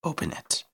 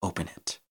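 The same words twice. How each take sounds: First: Whispered command, pitched up; soft, whispery insistence; insistent hushed demand. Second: Hushed, breath-short command; much softer, panting demand; panted order. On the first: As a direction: repeat the order in an unvoiced hush. Fang cuts off his plea. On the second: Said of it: "Fang panted". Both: A narrator's reading.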